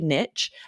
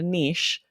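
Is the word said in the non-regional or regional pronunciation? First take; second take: regional; non-regional. First: The word has the speaker's regional pronunciation. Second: The word has the other, non-regional pronunciation. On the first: This is how people locally say it. "in my regional dialect, we say niche" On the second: Locally this would sound strange or pretentious. "people would look at me strange"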